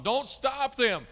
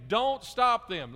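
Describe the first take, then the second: First: Slow, high and loud; booming, stretched-out command; really loud and strong. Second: Slow, high, loud command; a firm loud order from Jesus; forceful, stretched-out rebuke; loud and strong. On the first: Shown as a demonstration. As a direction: say it with the exclamation point. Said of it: "really loud and strong". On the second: Acted. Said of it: "he says it right, really loud and strong".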